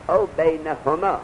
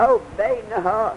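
First: "بینهما" read in full as beinahumā, slow and deliberate; corrected reading. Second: "بینها" read short as beinahā, higher and slow, a mistaken reading; misreading. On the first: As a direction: give the corrected "بینهما" slowly with its full "هما" ending. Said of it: "هما را بزن به کسره و الف". (تصحیح: «بینهما» کامل و شمرده خوانده شود) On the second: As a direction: say "بینها" as the wrong short form, dropping the "ما". (خواندن نادرست «بینها» بدون «ما»، بلندتر و آهسته) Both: Shown as a demonstration.

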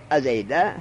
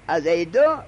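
First: ازیده with a final "e" sound, falling; accusative ending. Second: ازیدو with a final "u" sound, said loud; nominative ending. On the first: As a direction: end ازیده on a short "e". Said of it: "هر دو جایزه". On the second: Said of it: "ازیده، هر دو جایزه". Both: Shown as a demonstration.

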